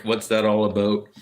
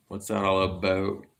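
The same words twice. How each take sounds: First: Put-on Canadian accent with "about" said like "aboat"; ex-girlfriend's thick Canadian accent. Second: Put-on lighter Ohio accent, "about" said the usual way, no "aboat". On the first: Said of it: "she had a very, very thick". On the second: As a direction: say it like an Ohioan, with plain "about". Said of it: "it's not really more like out".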